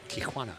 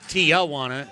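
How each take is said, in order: First: The name is said with a Spanish pronunciation. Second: The name is said with an Americanized pronunciation. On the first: The speaker calls it right. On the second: The speaker calls it wrong.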